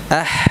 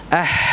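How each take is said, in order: Both takes have the same delivery.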